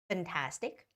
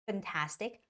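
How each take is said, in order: The two takes are said the same way.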